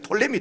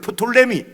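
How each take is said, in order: First: The name starts without a P sound. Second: The name starts with a P sound. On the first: This is how English speakers say it. "영어로는 피가 묵음이기 때문에" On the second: This is the original pronunciation. "원래 발음은 프톨레미입니다"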